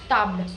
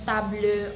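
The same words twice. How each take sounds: First: The word ends on the L, no vowel. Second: A final vowel sound is said after the L. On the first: The speaker calls it right. "the French native speakers do not pronounce the last e" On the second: The speaker calls it wrong. "we non-francophone speakers do this mistake of pronouncing that e sound at the end"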